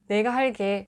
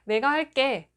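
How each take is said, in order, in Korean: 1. 마지막 음절은 예사소리 g로 시작합니다. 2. 마지막 음절은 된소리 kk로 시작합니다. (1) "이렇게 말하는 사람은 없고" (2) "이렇게 깨로 발음하잖아요"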